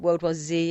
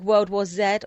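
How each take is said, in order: First: The letter Z is said the American way. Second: The letter Z is said the British way.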